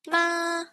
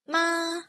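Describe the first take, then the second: First: The pitch stays high and level. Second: The pitch stays high and level.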